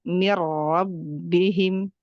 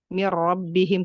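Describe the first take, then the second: First: The phrase is unhurried with a fuller r. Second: The phrase is rushed with a hurried r. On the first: The speaker calls it right. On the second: The speaker calls it wrong. "terlalu buru-buru"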